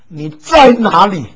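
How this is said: It sounds like a curious, inquiring question. The asker genuinely wants to know. "是求知的问呢"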